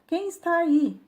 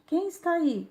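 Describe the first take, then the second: First: High, lightly raised echo of a call. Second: Mild narrated call. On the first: Mountain answers the curious boy, mild echoed shout. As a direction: repeat the call, much higher. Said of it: "e recebe uma resposta". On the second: Curious boy calls to the mountain, mild shout. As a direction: lightly call it out, much higher. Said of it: "o menino grita novamente". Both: A narrator's reading.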